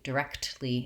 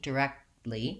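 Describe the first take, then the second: First: The K and T are clearly released. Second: The K is stopped and the T nearly drops. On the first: "I don't have to do it directly" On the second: "most Americans won't release those K and T sounds"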